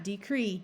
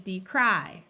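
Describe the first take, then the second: First: "decree" ending in an ee sound; "decree", Y read as long E; final long E. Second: "decry" with a strong final eye sound; "decry", ending on a stressed long I; accented long I. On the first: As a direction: say "decree" to rhyme with tree. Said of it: "Same thing here. Not decree". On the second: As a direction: hit the cry in "decry". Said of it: "Same thing here. Not decree, decry". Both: Shown as a demonstration.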